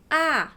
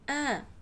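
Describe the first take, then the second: First: The vowel is open, clear and full. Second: The vowel is weaker, quieter and less clear. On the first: "The first A in the first syllable is sa" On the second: "although is not that louder, that clear as the first A"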